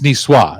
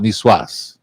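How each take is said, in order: First: The word ends without a final S sound. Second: The word ends with a final S sound. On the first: "you don't pronounce the S at the end" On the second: "I always want to call it Niçoise"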